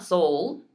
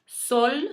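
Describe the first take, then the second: First: "soul" with a gliding English "oh" and dark L; anglicized "soul", vowel sliding to "oo"; English mispronunciation. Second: "Sol" with a short pure Spanish O, pitched high; high, clear Spanish "Sol"; Spanish vowel. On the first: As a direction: say "soul" like the English word, as the mistake. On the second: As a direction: say "Sol" with a clean O and light L, no glide. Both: Shown as a demonstration. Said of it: "not soul".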